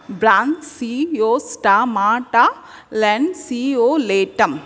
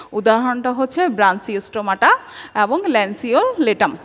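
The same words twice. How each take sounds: First: ব্রাঞ্চিওস্টোমাটা ল্যান্সিওলেটাম stretched slowly; slow careful pronunciation. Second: Said in the usual way. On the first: Shown as a demonstration. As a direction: say each syllable of ব্রাঞ্চিওস্টোমাটা clearly. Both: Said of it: "এইভাবে তোমরা উচ্চারণ করে করে পড়বা".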